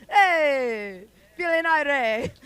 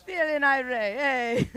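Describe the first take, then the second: First: Put-on loud, high Jamaican-accented call. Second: Put-on repeated Jamaican-accented "Feeling irate", less loud; Jamaican accent again, a touch softer. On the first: Playing with her Jamaican accent for the crowd, loud and high. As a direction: shout it out with a Jamaican lilt. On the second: Repeating her accented bit to the audience, a bit softer. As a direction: echo the line in the Jamaican accent. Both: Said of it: "a little bit of an accent".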